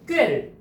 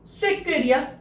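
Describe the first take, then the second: First: Only the tense second consonant is pronounced. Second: Both consonants of the initial cluster are pronounced. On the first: The speaker calls it right. "뒤에 쪽 자음을 발음했어요. 된소리로" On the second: The speaker calls it wrong. "아니고"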